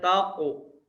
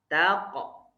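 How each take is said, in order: First: The vowel after q sounds rounded, like u. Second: The vowel after q sounds open, like o. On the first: The speaker calls it wrong. "Tidak boleh taqu" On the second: The speaker calls it right. "dia memiliki sifat infitah, kebuka"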